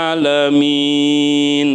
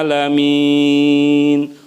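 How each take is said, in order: No difference in how they are said.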